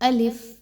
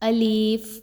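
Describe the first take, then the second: First: The word is said quickly with a short vowel. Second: The word is said slowly with a drawn-out vowel. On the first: The speaker calls it right. "इसकी अदायगी को बहुत जल्दी से किया जाता है" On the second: The speaker calls it wrong. "जब गलत अंदाज में पढ़ते हैं"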